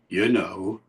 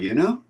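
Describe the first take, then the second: First: It is said with a low pitch. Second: It is said high, like a question. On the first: Extra words are added to make the meaning clear. "it's low down" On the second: Do you realize, or is that okay with you? "One is high up, like a tag question"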